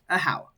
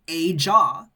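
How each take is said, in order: First: The middle consonant is an H sound. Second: The middle consonant is a J sound. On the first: The speaker calls it right. "but it's pronounced a How" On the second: The speaker calls it wrong. "it's spelled a jaw"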